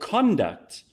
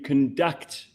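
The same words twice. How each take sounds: First: The stress is on the first syllable. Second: The stress is on the second syllable. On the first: It is used as a noun. "you stress the first and it becomes like a, a noun" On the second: It is used as a verb. "and you stress the second"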